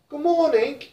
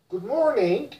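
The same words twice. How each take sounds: First: It is said in a British accent. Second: It is said in an American accent. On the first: "In British" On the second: "In American"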